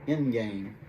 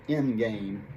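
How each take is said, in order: First: The d sound is dropped and end sounds like in. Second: The d sound is dropped and end sounds like in.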